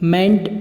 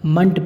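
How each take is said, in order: First: The ending has a full clear e vowel. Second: The ending has a short reduced vowel. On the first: The speaker calls it wrong. "मेंट नहीं पढ़ेंगे" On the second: The speaker calls it right. "हमेशा मंट पढ़ेंगे"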